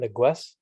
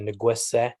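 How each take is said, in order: First: The word ends without an added final vowel. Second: The word ends with an added final vowel.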